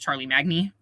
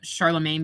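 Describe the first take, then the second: First: It is said letter by letter, as spelled. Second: It is said with its usual pronunciation.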